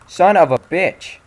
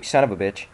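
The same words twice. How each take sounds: First: Slow, drawn out, much higher and louder, each word stretched; furious curse. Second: Said in the usual way. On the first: Real, not acted. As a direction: explode on the second try. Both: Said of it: "repeated louder right after".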